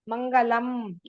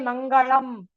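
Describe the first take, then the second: First: The l is a plain dental sound. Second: The l is a retroflex, Tamil-like sound. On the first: The speaker calls it right. "You must say" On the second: The speaker calls it wrong. "don't say Mangalam"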